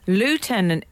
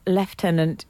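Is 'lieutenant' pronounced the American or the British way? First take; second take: American; British. First: The word is said the American way. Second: The word is said the British way. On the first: "lieutenant is an Americanism" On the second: "Lieutenant is the British way"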